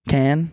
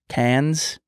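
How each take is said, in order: First: The word ends without any s sound. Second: The word ends with an audible s sound. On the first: The speaker calls it right. "Silent S always gets me" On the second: The speaker calls it wrong. "I can never say the word"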